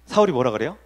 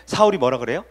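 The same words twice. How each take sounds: The two takes are said the same way.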